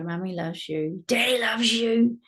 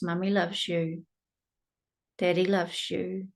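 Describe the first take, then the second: First: The voice is tense and not soothing. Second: The voice is calm and soothing. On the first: The words are said without real warmth. The speaker calls it wrong. "You can't go in there and go" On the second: The child is reassured and feels safe. The speaker calls it right. "in a regulating voice"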